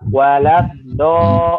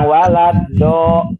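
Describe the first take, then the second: First: The consonant is a heavy, emphatic dhad. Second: The consonant is a light tongue-tip d. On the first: The speaker calls it right. "tapi do, walad do" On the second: The speaker calls it wrong. "bukan walad do"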